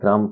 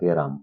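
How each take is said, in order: First: The first two consonants are said together as a cluster. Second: An 'e' vowel is inserted between the first two consonants. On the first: "গ যোগ র যোগ ম অর্থাৎ গ্রাম" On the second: "গড় পরে একটা কি আসতেছে এ ধ্বনি আসতেছে"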